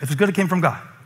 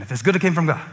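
First: It is spoken at a normal, steady pace. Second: It is spoken very quickly, words rushed together.

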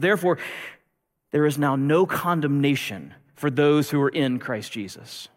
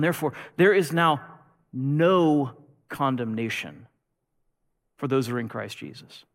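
First: It is said at a normal pace. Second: It is said slowly and deliberately.

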